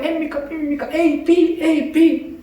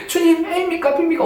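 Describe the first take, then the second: First: High, hushed repeated plea; childlike pestering. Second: Put-on high, childish pleading; childlike prayer. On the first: Retold or imitated. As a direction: nag the Lord like a child. (아이처럼 높고 작게 반복하는 기도) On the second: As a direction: ask the Lord like a little kid. (아이처럼 높게 조르는 기도) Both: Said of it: "어린아이처럼 그냥 계속 기도하는 거예요".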